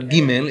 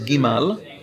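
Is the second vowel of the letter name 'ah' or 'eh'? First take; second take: eh; ah. First: The second vowel sounds like 'eh'. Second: The second vowel sounds like 'ah'. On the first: The speaker calls it wrong. "it's not Gimel" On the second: The speaker calls it right. "it's Gimal"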